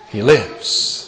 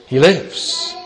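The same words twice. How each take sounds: First: Lower, softer falling repeat; hushed echo. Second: Softly rising declaration of wonder; quiet proclamation. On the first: Preacher echoes the resurrection news to himself, hushed and low. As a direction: let it sink down to a hush. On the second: Preacher marvels quietly that the risen Lord lives, rising tone. Triumphant resurrection proclamation, first time. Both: Acted.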